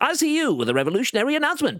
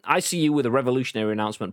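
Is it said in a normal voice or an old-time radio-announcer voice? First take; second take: radio-announcer voice; normal voice. First: It is said in a 1950s radio-announcer voice. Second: It is said in his normal speaking voice.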